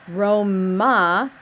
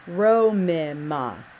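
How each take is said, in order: First: The repeated consonant is sounded only once. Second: The repeated consonant is sounded twice, with a vowel between. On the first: The speaker calls it wrong. "It's not Roma, because that sounds like one mem in there" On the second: The speaker calls it right. "It's Romima"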